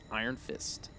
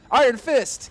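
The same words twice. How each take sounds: First: The name is said at normal speaking volume. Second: The name is shouted loudly like all caps. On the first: The speaker calls it wrong. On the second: The speaker calls it right.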